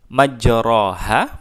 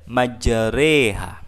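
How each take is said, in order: First: The vowel after majr- is an open a. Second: The vowel after majr- is a tilted e. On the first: "majroha kita miringkan ke arah kasrah" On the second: "tapi kita baca majreha"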